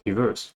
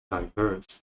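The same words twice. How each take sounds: First: DIVERSE in the American pronunciation, short unstressed first syllable. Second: "diverse" with the first syllable said like DIE; British pronunciation. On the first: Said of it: "that's the American pronunciation". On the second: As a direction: say "diverse" the British way, dye-VERSE. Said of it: "British will become diverse". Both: Shown as a demonstration.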